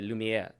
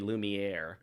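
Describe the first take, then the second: First: It is said with a soft French R. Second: It is said with a hard English R. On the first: The speaker calls it right. "You have to say Lumiere. Soft R" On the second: The speaker calls it wrong. "You can't say Lumiere. ... You don't want the hard R"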